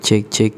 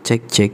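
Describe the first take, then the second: The two takes are said the same way.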